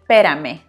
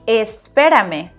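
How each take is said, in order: First: The initial es is dropped from the word. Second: The full word is said, with the initial es. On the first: This is how Mexicans actually say it. "we say pérame" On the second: This is the standard full form. "It should be espérame"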